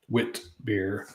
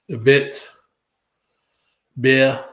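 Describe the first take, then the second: First: The first word begins with a W sound. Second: The first word begins with a V sound. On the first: It follows the English spelling. The speaker calls it wrong. "pronounce it out like it's spelled W I T" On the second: It follows the German pronunciation. The speaker calls it right. "I think it's pronounced Vit with the W being pronounced as a V in German"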